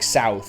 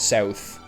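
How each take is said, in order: First: It is said with an American vowel. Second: It is said with a Canadian vowel. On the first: "Americans say" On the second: "instead of"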